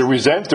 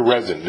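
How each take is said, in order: First: "Resent" stressed on the second syllable, ree-ZENT; pronounced re-ZENT. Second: "Resent" stressed on the first syllable, REZ-ent; pronounced REZ-ent. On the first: Host offering the artist a first reading of the title, "Resent" as ree-ZENT. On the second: Host offering the artist an alternative reading of the title, "Resent" as REZ-ent. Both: Shown as a demonstration. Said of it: "Is it Resent or Resent?".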